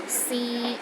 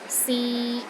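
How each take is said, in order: First: The pitch stays level in the middle. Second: The pitch stays level in the middle.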